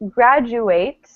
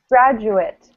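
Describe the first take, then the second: First: The ending does not sound like 'it'. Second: The ending sounds like 'it'. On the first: "if you say graduate" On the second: "it sounds like I T at the end"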